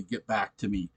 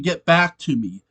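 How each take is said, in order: First: Quiet literal quote. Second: Said in the usual way. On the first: Shown as a demonstration. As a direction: lower and much softer, held back.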